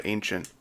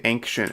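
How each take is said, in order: First: Said in the usual way. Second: Ancient said as "ankshent"; mispronounced ancient. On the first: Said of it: "instead of ancient". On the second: Shown as a demonstration. Streamer mimicking people who say it differently, ancient as "ankshent". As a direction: put a hard k sound into ancient, "ankshent". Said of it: "people who say ancient instead of ancient".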